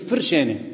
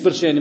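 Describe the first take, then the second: First: The word begins with an f sound. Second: The word begins with a b sound. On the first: The speaker calls it right. "هي بتلفظ صح على فكرة" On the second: The speaker calls it wrong. "مش برشاني"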